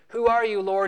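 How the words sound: It sounds defiant and skeptical.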